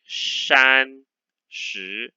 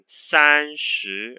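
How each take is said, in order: First: The first syllable starts with a curled sh sound. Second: The first syllable starts with a flat s sound. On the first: The speaker calls it wrong. "I need to roll up my tongue" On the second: The speaker calls it right. "It should be this one"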